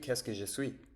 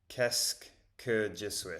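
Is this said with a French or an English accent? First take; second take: French; English. First: It is said with a French accent. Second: It is said with an English accent.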